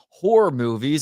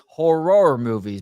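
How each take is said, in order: First: The word horror is said quickly and casually. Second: The word horror is said slowly and overcarefully. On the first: It sounds like a different, rude word. "it's not horror movies" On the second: The intended word is made unmistakable. "if I say it like that, it sounds like I have a speech impediment"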